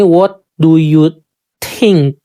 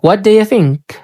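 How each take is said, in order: First: Each word is said separately and in full. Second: "Do you" blends together into "daya". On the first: The speaker calls it wrong. "Most of Indonesian people mungkin akan membaca ini" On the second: The speaker calls it right. "Terus ini bacanya daya"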